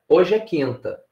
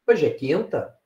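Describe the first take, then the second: First: The voice falls at the end, as a statement. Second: The voice rises at the end, as a question. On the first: It asserts that today is Thursday. "no momento eu afirmei" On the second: It asks whether today is Thursday. "em outro eu perguntei"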